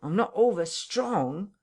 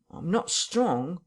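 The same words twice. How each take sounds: First: Higher, stretched plea leaning on over; slower, more emphatic whine. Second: Slow, higher, feeble whine. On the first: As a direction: repeat it more pitifully. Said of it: "he repeated". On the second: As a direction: drag it out pitifully. Marvel pleads weakness. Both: Acted.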